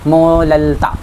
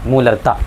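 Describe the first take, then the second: First: The middle consonant is an l sound. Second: The middle consonant is a clear r sound. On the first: A small child says it. "छोटे बच्चे र नहीं बोल पाते हैं" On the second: An adult says it clearly. "ये word बोल के दिखलाना मोलरता"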